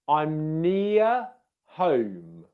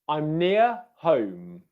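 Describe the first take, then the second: First: The phrase is said slowly and carefully. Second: The phrase is said quickly and smoothly.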